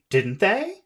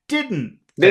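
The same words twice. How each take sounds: First: The pitch rises at the end. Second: The pitch falls at the end. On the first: The speaker is not sure. "That means I'm not sure" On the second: The speaker is confident and wants agreement. "Don't go up with"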